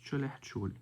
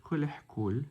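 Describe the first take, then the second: First: "chulih chul" with ch starting both words; actual pronunciation. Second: "kulih kul" with k starting both words; spelling pronunciation. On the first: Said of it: "but pronounced chulih chul". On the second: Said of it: "It's spelled kulih kul". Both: Shown as a demonstration.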